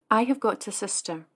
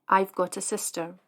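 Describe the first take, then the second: First: "I have" is said as two full words. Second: "I have" is shortened to one syllable.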